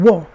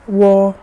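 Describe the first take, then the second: First: The pitch falls sharply from high. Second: The pitch stays high and level. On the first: "would be the fourth sound" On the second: "if it's the first one"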